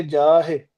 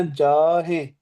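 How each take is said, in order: First: "ਜਾਹੇ" said with no nasal sound, the wrong way; "ਜਾਹੇ" with an oral ending, no nasal; without nasal. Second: "ਜਾਹੇ" with its ending sent through the nose; "ਜਾਹੇ" with a nasal ending, like ਜਾਹੇਂ. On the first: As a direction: say "ਜਾਹੇ" through the mouth only. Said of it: "ਨੱਕ ਚੋਂ ਆਵਾਜ਼ ਕੱਢਣ ਤੋਂ ਬਗੈਰ". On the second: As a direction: nasalize the final vowel of "ਜਾਹੇ". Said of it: "ਨੱਕ ਚੋਂ ਆਵਾਜ਼ ਕੱਢਣੀ ਆ". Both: Shown as a demonstration.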